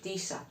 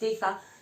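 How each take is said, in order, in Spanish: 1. La consonante del medio es un sonido S. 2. La consonante del medio es un sonido Z. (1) "decir una S" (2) "en vez de decir una Z"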